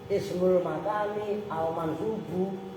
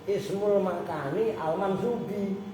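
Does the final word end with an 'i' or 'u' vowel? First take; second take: u; i. First: The last word ends with a 'u' vowel. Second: The last word ends with an 'i' vowel. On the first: The adjective describes the noun 'ism'. The speaker calls it right. "dibaca bu karena sifatnya is ismu" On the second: The adjective is taken to describe the place word. The speaker calls it wrong. "bocah yang bacanya ngelantur"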